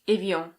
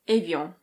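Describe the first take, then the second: First: It is said with a French pronunciation. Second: It is said with a French pronunciation.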